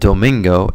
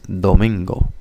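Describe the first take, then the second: First: The d is a hard English-style stop. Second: The d is soft, almost like th. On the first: The speaker calls it wrong. "with a duh, it would sound like domingo. Definitely has a gringo accent" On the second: The speaker calls it right. "use the tip of your tongue more... almost like a th"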